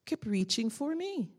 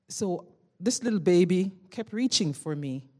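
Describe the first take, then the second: First: Slow, higher-pitched "Kept reaching for me"; emphatic repeat. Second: Said in the usual way. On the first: Real, not acted. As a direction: lean on "Kept reaching for me", slowly.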